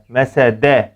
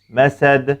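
First: The word ends in a full e vowel. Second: The word ends in a strong bounced d. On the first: The speaker calls it wrong. "şekline benzetmeden" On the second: The speaker calls it right. "dilimi sadece dal harfinden geri çekiyorum ve kuvvetli bir sesin çıkmasını sağlıyorum"

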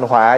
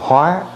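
First: The word has a low glottalized tone. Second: The word has a high rising tone. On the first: It means disaster. "thì thành hỏa dấu nặng" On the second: It means to transform or adapt. "nó có dấu sắc là hóa"

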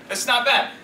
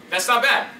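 No difference in how they are said.

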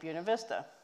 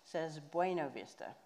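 First: The name is said the local way. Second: The name is said the common outside way. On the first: This is how people from the town say it. "he said it correctly" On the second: This is how outsiders say it. "the rest of the world, of course, says Buena Vista"

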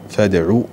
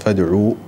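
First: The word ends in a short u vowel. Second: The word ends in a long u vowel. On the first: This is the imperative form used in the verse. "نحذف الواو وننطق بعين مضمومة" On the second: This is the original form before the weak letter drops. "أصلا"

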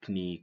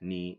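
First: The K at the start is pronounced. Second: The K at the start is silent. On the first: The speaker calls it wrong. "Don't say" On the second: The speaker calls it right.

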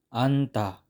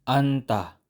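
No difference in how they are said.

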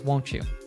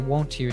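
First: The t and y blend into ch. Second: A separate t sound comes before you. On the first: "she says won't you" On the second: "she doesn't say won't you"

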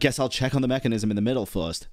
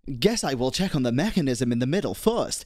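First: "I will" is contracted to "I'll". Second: "I will" is said as two full words. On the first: The line sounds natural and casual. The speaker calls it right. "instead of just being like" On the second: The line sounds stiff and robotic. The speaker calls it wrong. "It sounds so robotic"

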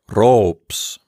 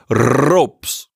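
First: The R is rolled short and lightly. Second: The R is rolled long and heavily. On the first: "You can just lightly roll the letter rho like this" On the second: "You don't have to roll it in a really heavy way. You don't have to say ropes"

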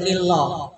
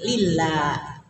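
First: The L is heavy with a dark vowel. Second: The L is light with a thin vowel. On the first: The speaker calls it wrong. "tidak boleh" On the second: The speaker calls it right. "bunyinya tartik"

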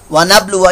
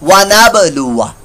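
First: The b is closed without an echoing bounce. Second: The b is released with a short echoing bounce. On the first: The speaker calls it wrong. "ये कलकला नहीं आपने किया" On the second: The speaker calls it right. "अब यहां कलकला करें ना जहां करना होता है"

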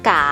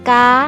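First: The syllable is said in the chattawa tone. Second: The syllable is said in the tri tone. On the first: "กาไม้จัตวา" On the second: "กาไม้ตี"

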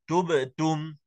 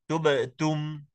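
Both takes have the same delivery.

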